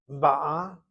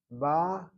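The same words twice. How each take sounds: First: Ba'a punched louder on the final A; second-syllable stress. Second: Ba drawn out with weight at the start; first-syllable stress. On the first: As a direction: say Ba'a as ba-AH, demonstrating the present tense. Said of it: "accent is on the second syllable". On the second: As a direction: say Ba as BAA-a, demonstrating the past tense. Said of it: "with the accent on the first syllable". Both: Shown as a demonstration.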